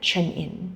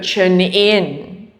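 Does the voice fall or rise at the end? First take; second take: fall; rise. First: The voice falls at the end, like a statement. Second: The voice rises at the end, like a question.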